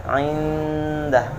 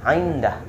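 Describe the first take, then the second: First: Indah with a long hummed n; correct nasal hold. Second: Indah with a crisp unhummed n; wrong reading. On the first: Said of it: "itu yang benar". (indah dengan dengung dua harokat) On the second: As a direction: say indah with no hum. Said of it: "Yang salah bacanya gini". (indah dibaca jelas tanpa dengung) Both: Shown as a demonstration.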